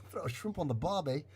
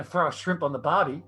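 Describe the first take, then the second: First: Quick, badly faked Australian accent; attempted Australian accent. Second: Australian accent, demonstrated on request. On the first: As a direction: copy the Australian line, not quite getting it. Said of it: "how do I talk Aust-, Australian again". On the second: Shown as a demonstration. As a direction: show them how an Australian says it. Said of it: "Can you say that for us".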